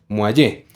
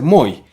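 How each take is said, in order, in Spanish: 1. El nombre termina en un sonido e tónico. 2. El nombre termina sin ningún sonido e final. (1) "debe acentuarse y debe pronunciarse la E" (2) "Unos corrigen e insisten en que deba ser Moi"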